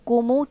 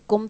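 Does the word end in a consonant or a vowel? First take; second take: vowel; consonant. First: The word ends with an added u vowel. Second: The word ends on a closed m sound. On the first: The word links to the next word. "उसका सुकून हटाकर पेश डाल दिया" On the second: The word stands alone. "कुम तो आप पढ़ चुकी हैं"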